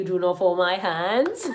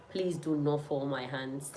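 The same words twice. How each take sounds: First: Slow, emphatic begging. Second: Quiet, slow plea; soft pleading. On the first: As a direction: plead it out, drawn out. Begging viewers again. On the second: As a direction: softly beg them not to let you down. Begging viewers for answers. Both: Real, not acted.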